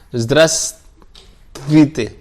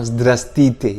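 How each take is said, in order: First: Every consonant in the word is pronounced. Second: Some consonants in the middle are dropped. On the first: "ada v, s, t, v" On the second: "Bahkan ada yang bilang zdrastite. Jadi mereka menghilangkan ini ini"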